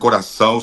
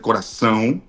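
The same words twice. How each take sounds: First: The final vowel is oral, not nasal. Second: The final vowel is strongly nasal. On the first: The speaker calls it wrong. "No se dice corazón" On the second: The speaker calls it right. "es más nasal"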